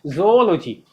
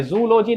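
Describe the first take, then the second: First: ZOOLOGY as zo-OL-o-jee; correct pronunciation. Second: ZOOLOGY beginning with zoo; wrong pronunciation. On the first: Teacher corrects students, ज़ूलॉजी as "zo-ol-o-jee". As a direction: say ज़ूलॉजी with zo-o, falling. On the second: Teacher rejects the error, जूलॉजी as "zoo-lo-jee". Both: Shown as a demonstration. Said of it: "नहीं होता है".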